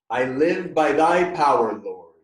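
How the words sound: It is said loudly.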